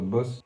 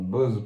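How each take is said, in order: First: The word sounds like the English word 'boss'. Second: The word sounds like the brand name 'Bose'. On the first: The speaker calls it wrong. "pas Boss" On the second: The speaker calls it right. "Une enceinte Bose"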